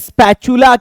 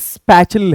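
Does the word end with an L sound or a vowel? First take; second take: vowel; L sound. First: The word ends with a final vowel sound. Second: The word ends with an L sound. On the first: The speaker calls it wrong. "बहुत सारे बंदे इसको wrong pronounce करते हैं" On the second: The speaker calls it right. "ये actually स्पैचुल है"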